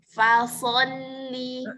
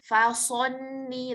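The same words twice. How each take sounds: First: The vowel is unrounded, without an O sound. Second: The vowel is rounded, sounding like O. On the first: The speaker calls it right. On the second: The speaker calls it wrong. "jangan sampai membulatkan bibir"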